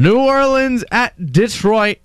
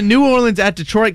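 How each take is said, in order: First: It is said slowly. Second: It is said very fast.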